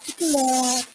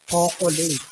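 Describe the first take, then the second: First: It is said in a sweet, lilting Ilonggo accent. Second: It is said in a plain Tagalog accent. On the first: "Pag nasa Iloilo naman, siyempre may lambing yun" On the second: "Sa Maynila, siyempre, Tagalog na Tagalog mga tao doon"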